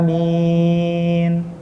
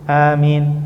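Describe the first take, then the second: First: The word is drawn out long. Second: The word is said short and clipped.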